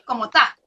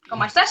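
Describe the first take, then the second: First: The final s sound is dropped. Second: The final s sound is clearly pronounced. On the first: "lo que él dice es como está" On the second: "Es el castellano normal de Madrid"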